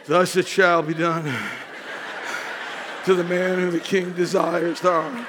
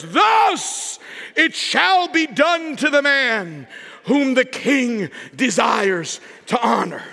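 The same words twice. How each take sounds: First: Lower, dark and foreboding; a low, foreboding retelling of the king's proclamation; ominous proclamation. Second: Slow proclaiming call like a herald; a slow town-crier call; herald's proclamation. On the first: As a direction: read it like bad news coming. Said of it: "You had to know that proclamation wasn't good". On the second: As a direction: announce it slowly to the whole city. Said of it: "proclaiming these words". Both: Acted.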